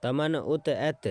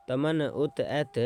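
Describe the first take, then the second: No difference in how they are said.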